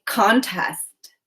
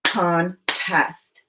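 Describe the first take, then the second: First: Said in the usual way. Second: "Contest" split as con, pause, test; separated syllables. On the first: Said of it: "I'm going to say the word". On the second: Shown as a demonstration. Teacher models breaking "Contest" apart for pupils, syllable by syllable. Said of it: "Now say the syllables in contest".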